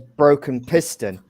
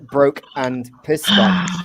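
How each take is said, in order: First: The first word sounds like 'broken'. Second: The first word sounds like 'broke and'. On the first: It is the beer's name as written. "when you read it onto the can, it says" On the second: It becomes a joke phrase. "if you pronounce it in a different way"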